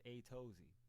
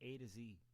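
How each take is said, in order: First: The name sounds like 'A' plus 'Tozy'. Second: The name sounds like the phrase 'A to Z'. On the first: The speaker reads the name this way. "but I read this as A Tozy" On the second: Someone else says the name this way. "an Australian guy pronounce this as A to Z"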